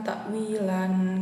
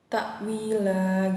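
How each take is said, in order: First: The word ends with an added n sound. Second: The word ends on a long vowel without n. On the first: The speaker calls it wrong. "bukan takwilan gitu" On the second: The speaker calls it right. "tanwin itu dihilangkan, jadi hanya dibaca takwila gitu"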